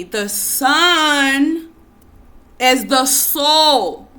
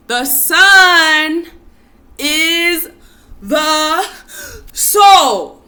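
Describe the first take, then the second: First: Slow, each word weighed, a bit louder; emphatic call. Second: Chanted, higher and much louder, shouting soul; shouted chant. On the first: Teacher leading the phrase for listeners to repeat, slow and emphatic. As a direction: lay the phrase out slowly for them to repeat. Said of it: "say it with me". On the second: Teacher urging listeners to chant along, full shout. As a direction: belt it out like a rally chant. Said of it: "Okay, say it with me". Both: Shown as a demonstration.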